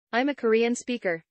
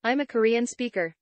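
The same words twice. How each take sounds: The two takes are said the same way.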